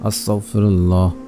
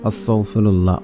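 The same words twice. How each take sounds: No difference in how they are said.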